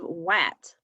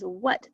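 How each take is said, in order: First: The vowel sounds like 'ah'. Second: The vowel sounds like 'uh'. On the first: The speaker calls it wrong. "instead of wat" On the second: The speaker calls it right. "the A makes an uh sound"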